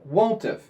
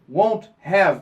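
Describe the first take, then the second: First: The two words are compressed into one contraction. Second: The two words are said fully and separately. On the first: "eles contraem os dois" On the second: "em vez de dizer won't have"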